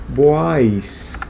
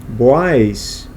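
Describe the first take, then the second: No difference in how they are said.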